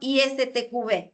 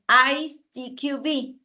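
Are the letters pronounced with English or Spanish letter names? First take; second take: Spanish; English. First: The letters are spoken with Spanish letter names. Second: The letters are spoken with English letter names. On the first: "en castellano" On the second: "en inglés"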